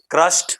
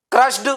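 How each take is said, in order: First: Crushed ending on a t, "krusht"; right pronunciation. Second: Crushed with a voiced "duh" ending; wrong pronunciation. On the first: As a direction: say क्रश्ड in one syllable. (क्रश्ड को "क्रश्ट" जैसा) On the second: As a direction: say क्रश्ड as "krush-duh". (क्रश्ड के अंत में ड) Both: Shown as a demonstration. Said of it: "right pronunciation".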